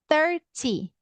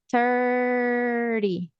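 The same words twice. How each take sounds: First: The middle consonant is a clear t sound. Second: The middle consonant is a quick r-like tap. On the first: "Tá vendo o ti aparecendo?" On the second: "ri, com esse som de rarará"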